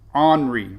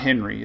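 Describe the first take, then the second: First: The name starts without an H sound. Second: The name starts with an H sound. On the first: The speaker calls it right. "without an H" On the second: The speaker calls it wrong. "It's not Henry"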